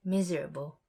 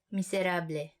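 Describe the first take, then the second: First: Miserable said MIZ-er-uh-bul, English vowels; English reading of miserable. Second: Miserable said mee-seh-RAH-bleh, every letter sounded; Tagalog miserable. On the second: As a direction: Tagalog vowels in miserable, as spelled. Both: Shown as a demonstration. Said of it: "spelled the same way as miserable".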